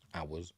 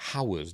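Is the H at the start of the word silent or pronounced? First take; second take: silent; pronounced. First: The word begins with a vowel, H silent. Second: The word begins with an audible H sound. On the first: "Why don't you pronounce the H in hours" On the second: "You don't say hours, do you?"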